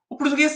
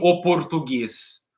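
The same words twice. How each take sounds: First: It is pronounced casually, with relaxed reduced sounds. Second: It is pronounced carefully, each sound spelled out. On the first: The speaker calls it right. "A gente fala" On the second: The speaker calls it wrong. "a gente não fala assim"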